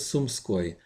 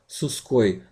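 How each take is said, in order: First: The m is kept before the sk cluster. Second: The m is dropped from the consonant cluster. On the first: The speaker calls it right. "my name is Sumskoy" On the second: The speaker calls it wrong. "don't try to shorten it"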